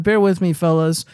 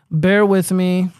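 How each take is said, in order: First: Said in the usual way. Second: "Bear with me" stretched very slowly; slow drawn-out plea. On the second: Real, not acted. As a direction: draw out "Bear with me" to stall for time. Repeats it drawn out while searching.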